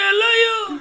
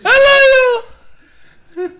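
First: It is said in a lower voice. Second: It is said in a high-pitched voice.

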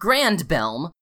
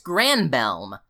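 First: The name is said with a d sound. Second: The name is said without a d sound. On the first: The speaker calls it wrong. "not Grandbelm" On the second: The speaker calls it right. "It's Granbelm"

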